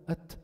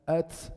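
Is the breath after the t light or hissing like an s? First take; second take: light; hissing. First: A light puff of breath follows the t. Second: A hissing s-like sound follows the t. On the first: The speaker calls it right. "لا ما بدل هاد" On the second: The speaker calls it wrong. "بعض الناس كتير بيبالغوا ... بزيد سين"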